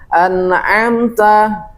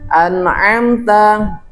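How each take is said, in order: No difference in how they are said.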